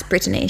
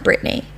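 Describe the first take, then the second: First: BRITTANY said BRIT-uh-nee; "Brittany" with the middle uh sounded; three-syllable Brittany. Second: BRITTANY said BRIT-nee; "Brittany" squeezed to two syllables. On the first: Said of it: "my grandma likes Brittany". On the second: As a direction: drop the middle vowel of Brittany. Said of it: "She doesn't like Brittany". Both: Shown as a demonstration.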